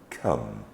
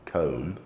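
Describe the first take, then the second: First: The vowel is a short uh sound. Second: The vowel is a long O sound. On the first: The speaker calls it right. "we're making the short sound uh" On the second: The speaker calls it wrong. "not the vowel sound of O, long vowel sound of O"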